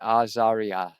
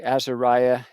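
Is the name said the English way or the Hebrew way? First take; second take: Hebrew; English. First: The name is said with a Hebrew pronunciation. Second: The name is said with an English pronunciation.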